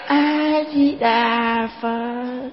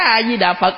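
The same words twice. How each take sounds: First: It is said softly and gently. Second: It is said sharply, like a scolding. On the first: It shows respect. The speaker calls it right. "mình phải nhẹ nhàng xuống" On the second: It startles the listener. The speaker calls it wrong. "nạt chồng quen rồi vô chùa nạt mấy ông thầy"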